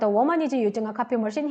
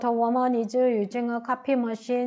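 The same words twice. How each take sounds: First: It is read quickly and fluently. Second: It is read slowly with hesitation. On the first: The speaker calls it right. "빨리 읽어야 잘 들려요" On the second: The speaker calls it wrong. "이렇게 하지 마시고요"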